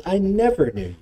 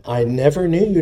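First: Never lifted high and leaned on; I never knew you, with never raised; stress on never. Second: Said in the usual way. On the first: Shown as a demonstration. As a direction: point the word never. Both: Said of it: "And you notice there".

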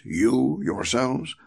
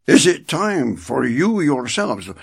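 First: "you yourselves" drawn out slowly with "you" stressed and a rising end. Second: "you" hit loud and firm at the start of the question; stress on you. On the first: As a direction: weigh "you" slowly, letting it hang. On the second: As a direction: lean hard on "you" in "you yourselves". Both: Shown as a demonstration. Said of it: "see the emphasis".

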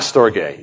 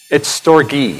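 First: "Storge" said Greek-style, without the long E; wrong pronunciation. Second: "Storge" with a long E ending; correct pronunciation. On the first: Preacher showing his earlier wrong "Storge", Greek-style. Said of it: "I was kind of speaking it like Greek". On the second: Preacher correcting his pronunciation of "Storge", long E. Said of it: "It's a long E". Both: Shown as a demonstration.

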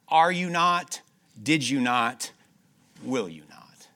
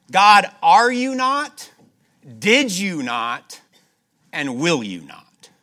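First: Said in the usual way. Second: Loud, slow, high rising questions to God; fervent pleading prayer. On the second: Acted. Preacher voices the king praying to God, loud and pleading. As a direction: plead each question upward, drawn out. Rehearsing God's faithfulness in prayer.

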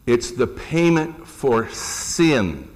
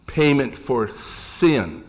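First: Slow, with weight on payment and sin; stress on sin. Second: Slow repeat, weight on Payment and sin; stress on sin. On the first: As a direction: lean on payment for sin, slowly. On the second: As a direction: say Payment for sin slowly again. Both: Shown as a demonstration. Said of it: "I stress that word sin".

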